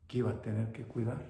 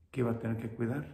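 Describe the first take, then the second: No difference in how they are said.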